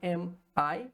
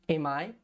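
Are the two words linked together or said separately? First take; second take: separate; linked. First: The two words are said separately. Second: The consonant links straight into the vowel.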